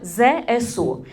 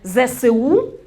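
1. Кожну літеру читають за її назвою. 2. Її читають як одне слово. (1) "ми будемо вимовляти кожну букву, як в алфавіті" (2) "не ЗСУ"

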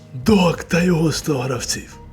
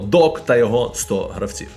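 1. Сказано удаваним голосом бандитського боса. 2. Сказано звичайним голосом мовця.

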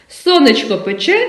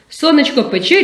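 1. Її вимовляють у звичайному, неквапливому темпі. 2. Її вимовляють швидко.

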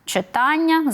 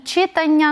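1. Наголос падає на закінчення -ання. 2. Наголос падає перед закінченням -ання. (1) "то і наголошуємо ми на «ання»" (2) "як часто ми неправильно чуємо"

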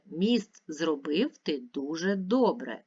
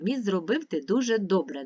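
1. Рядок читається повільним темпом. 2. Рядок читається швидким темпом. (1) "Тепер читаємо разом" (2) "А тепер швидко"

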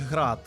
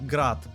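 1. Слово вимовляється по-українськи. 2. Слово вимовляється по-російськи. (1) "роботи українського виробництва, то правильно вимовляти їх «Град»" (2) "більшість у світі вимовляє їх на російський манер"

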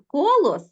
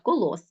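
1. Наголос на першому складі. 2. Наголос на останньому складі. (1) "наголос на першому складі" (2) "наголос ставимо на останній склад"

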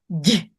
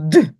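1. Приголосний м'який, пом'якшений. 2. Приголосний твердий, не пом'якшений. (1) "м'який" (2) "Так, це твердий"

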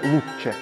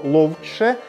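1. Слово вимовляється коротше, з простим 'у'. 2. Слово вимовляється з повним звуком 'ов'. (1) "стали ще коротше вимовляти це слово" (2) "Спочатку, напевне, звучало ловче"

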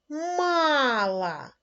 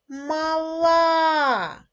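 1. Наголос на першому складі. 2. Наголос на останньому складі. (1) "в першому слові наголос поставлю на перший склад" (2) "наголос поставила на останній склад"

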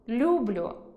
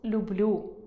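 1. Слово має діалектний наголос. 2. Слово має стандартний літературний наголос. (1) "«люблю» замість" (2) "замість «люблю»"

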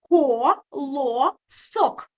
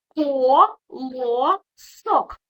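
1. Слово ділять на склади, роблячи паузи між ними. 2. Слово ділять на склади, роблячи паузи між ними.

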